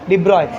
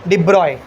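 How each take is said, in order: Both takes have the same delivery.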